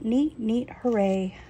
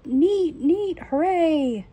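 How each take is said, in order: First: Said in the usual way. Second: High, loud mock cheer, slow on the second neat; imagined shout. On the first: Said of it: "I wanted you to shout". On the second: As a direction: cheer it out like the father would. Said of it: "he will shout".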